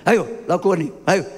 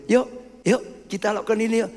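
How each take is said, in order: First: Mock snap. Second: Gentle invitation. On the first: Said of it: "Bentak gitu". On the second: Acted. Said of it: "Ini ajakan dengan baik itu".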